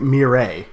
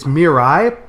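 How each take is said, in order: First: The name ends with an 'ay' vowel sound. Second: The name does not end in an 'ay' sound. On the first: The speaker calls it wrong. "I've been pronouncing it Mireille" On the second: The speaker calls it right. "it's it's Mirai"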